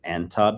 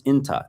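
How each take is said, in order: First: Anta with an open "an" first syllable; standard Arabic form. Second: Inta with a short "in" first syllable; dialect pronunciation. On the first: Teacher repeating the standard form for learners, standard pronunciation. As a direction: say anta as AN-tah, not IN-tah. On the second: Teacher repeating the slightly different dialect form, dialect pronunciation. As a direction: say inta as IN-tah, not AN-tah. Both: Shown as a demonstration. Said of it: "slightly different pronunciation".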